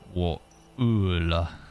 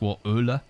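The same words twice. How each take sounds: First: The sounds are pushed and strongly exaggerated. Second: The sounds are said lightly and plainly. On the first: "maybe I'm exaggerating it too much?" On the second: "Is it just"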